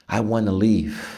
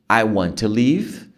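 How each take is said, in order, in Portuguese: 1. 'Want to' se funde em uma só palavra, wanna. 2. 'Want to' é dito como duas palavras completas. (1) "Muito comum" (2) "I want to vira wanna"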